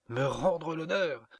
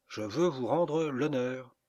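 First: Higher, louder, drawn-out mocking question; incredulous amusement. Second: Slow, louder, stately pronouncement; solemn declaration. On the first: Woman mocks her suitor's offer, incredulously amused. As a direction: echo it high, as if about to burst out laughing. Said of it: "éclata de rire". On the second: Earnest suitor makes amends to a fallen woman, solemn. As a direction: declare it grandly, drawing out each word. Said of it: "dit d'un ton solennel". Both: A narrator's reading.

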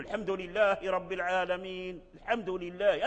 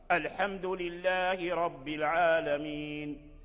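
First: الحمد لله begun on a bare l, as lhamdu; imitating students' faulty start. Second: الحمد opened on a clear glottal al, slowly chanted; chant with sounded hamza. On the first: Teacher imitating many students, الحمد without its hamza. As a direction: drop the first a of الحمد in recitation. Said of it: "هذا لحن". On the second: Shown as a demonstration. Teacher giving correct recitation, slow chant, hamza on الحمد. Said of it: "همزة قطع".

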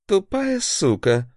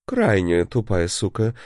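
First: High, slow spat-out insult; angry curse. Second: Mock polite correction. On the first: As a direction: spit the insult out furiously. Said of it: "бросил он". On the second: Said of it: "поправился, отряхнулся и повторил". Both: A narrator's reading.

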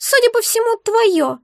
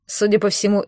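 First: Very high, squeaky, put-out creature; upset. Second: Said in the usual way. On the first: A narrator's reading. Egg answers whose it is, upset. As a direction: squeak it in dismay. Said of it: "огорчённо отозвалось существо".

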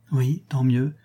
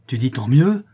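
First: Said in the usual way. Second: Loud, rising challenge; menacing exclamation. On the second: A narrator's reading. La louve challenges Fleur de Marie's answer, menacing exclamation. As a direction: throw it back as a threatening question. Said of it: "S'écria la louve, les yeux menaçants".

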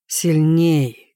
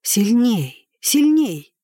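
First: Said in the usual way. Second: Urging to himself. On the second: A narrator's reading. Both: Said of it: "говорил он про себя".

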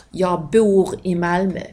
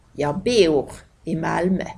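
First: Said in the usual way. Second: "bor" in the sentence said as "beor"; Skåne diphthong. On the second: Shown as a demonstration. Teacher giving local example sentence, "bor" as "beor". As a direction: glide "bor" from e to o. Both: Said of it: "som blir O".

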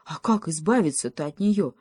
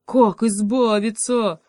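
First: Anxious question, near the usual voice; mild panic. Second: Loud, higher, drawn-out wail; panicked. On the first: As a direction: ask with a touch of worry. (с лёгкой тревогой) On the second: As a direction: wail the question in desperation. (панический протяжный вопль) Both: A narrator's reading. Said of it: "заметался в полной панике".

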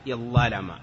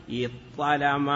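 First: اضطلم as iẓẓalama with a long ẓ; reverse assimilation. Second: اضطلم as iṭṭalama with a long ṭ; first changed to second. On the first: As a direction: geminate the ẓ in اضطلم. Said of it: "أو بالعكس". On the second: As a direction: geminate the emphatic ṭ in اضطلم. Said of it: "الأول مثل الثاني". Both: Shown as a demonstration.

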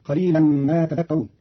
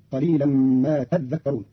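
First: Said in the usual way. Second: "تذكرون" with a held, doubled dh; doubled dhal. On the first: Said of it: "قرأ قالون كلمة تذكرون". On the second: Shown as a demonstration. Teacher shows Qalun's reading, "تذكرون" with doubled dhal. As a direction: lean on the dh in "تذكرون". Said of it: "بتشديد الذال فتصير".

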